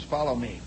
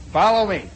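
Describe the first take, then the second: First: Low, soft "follow me"; low-key order. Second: Louder, sharper "follow me"; firm order. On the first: First sergeant leading prisoner away, low quiet order. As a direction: give the order under your voice. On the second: First sergeant leading prisoner away, firm loud order. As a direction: repeat the order with military force. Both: Retold or imitated.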